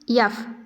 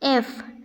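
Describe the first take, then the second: First: It begins with a y sound. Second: It begins with a plain vowel sound. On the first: The speaker calls it wrong. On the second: The speaker calls it right.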